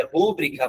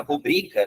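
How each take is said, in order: First: "rúbrica" wrongly stressed on RÚ; pronúncia incorreta. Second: "rubrica" stressed on BRI, pitched higher; pronúncia correta. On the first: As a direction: hit the first syllable of "rúbrica". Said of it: "não vou nem falar rúbrica porque é incorreto". ("rúbrica" com acento forte no RÚ) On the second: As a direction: lift the middle syllable of "rubrica". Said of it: "a tônica é essa". ("rubrica" com a tônica aguda no BRI) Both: Shown as a demonstration.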